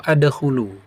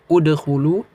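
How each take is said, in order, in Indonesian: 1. Kata ini diawali dengan vokal a. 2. Kata ini diawali dengan vokal u. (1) "tidak dibaca fathah" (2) "dibaca dengan dom dhammah"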